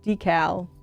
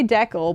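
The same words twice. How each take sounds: First: The word is said the American-British way. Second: The word is said the Canadian way. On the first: "American and British English is decal" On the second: "Canadians say decal"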